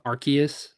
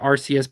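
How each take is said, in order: First: The c is said like a k sound. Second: The c is said like an s sound. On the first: The speaker calls it right. "That's why I say it's Arc like Arceus" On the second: The speaker calls it wrong. "not Arceus"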